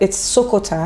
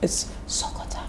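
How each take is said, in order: First: It is said aloud in a normal voice. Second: It is whispered.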